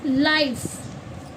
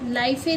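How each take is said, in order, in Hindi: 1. शब्द 'f' ध्वनि पर खत्म होता है। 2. 'f' के बाद एक अतिरिक्त स्वर ध्वनि बोली जाती है। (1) "ई साइलेंट है" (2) "लाइफ ए नहीं पढ़ेंगे ना"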